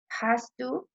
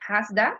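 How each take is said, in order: First: Both words are said fully and separately. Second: The words blend into one reduced form. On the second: "we say hasda"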